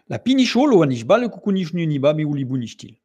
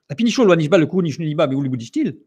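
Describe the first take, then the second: First: The sentence is spoken slowly. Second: The sentence is spoken quickly. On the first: "très, très lentement ... Je l'ai dit tout doucement" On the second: "je vous l'ai dit une fois rapidement"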